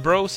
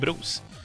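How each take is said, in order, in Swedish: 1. Ordet låter som det engelska 'bros'. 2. Ordet låter som namnet Bruce. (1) "Man vill alltså att man ska säga Bros" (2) "Alltså som i Bruce Banner"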